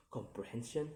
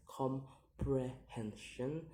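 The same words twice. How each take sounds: First: Said in the usual way. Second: "comprehension" slowly split into syllables; slow, separated syllables on "comprehension". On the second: Shown as a demonstration. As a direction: sound out "comprehension" piece by piece. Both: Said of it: "count the word syllable backwards".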